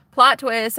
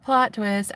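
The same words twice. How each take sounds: First: "Plot twist" hit louder, both words punched; punchy reveal. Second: Said in the usual way. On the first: Shown as a demonstration. Confessing to viewers her crush, saying "Plot twist" louder and punched.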